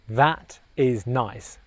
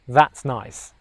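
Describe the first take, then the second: First: The phrase is said slowly, each word separate. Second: The phrase is said quickly, words run together.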